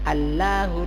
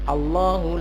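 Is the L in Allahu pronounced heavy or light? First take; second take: light; heavy. First: The L in Allahu is light and thin. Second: The L in Allahu is heavy and full. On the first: The speaker calls it wrong. "jangan dibaca" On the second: The speaker calls it right. "kalau di awal kalimat"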